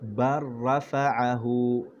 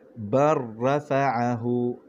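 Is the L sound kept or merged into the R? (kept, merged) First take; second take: merged; merged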